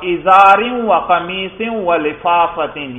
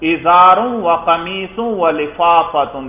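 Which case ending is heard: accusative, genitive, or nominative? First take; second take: genitive; nominative. First: The nouns carry the genitive (jarr) case ending. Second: The nouns carry the nominative (raf') case ending. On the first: "یہاں جر پڑھا" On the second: "دیکھو رفع پڑھا"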